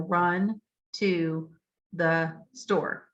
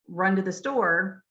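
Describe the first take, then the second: First: Each word, including 'to', is said in full. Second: The word 'to' is reduced and runs together. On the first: A child decoding word by word. "if they're decoding it and they're saying each word" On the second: An adult speaking naturally. "you say"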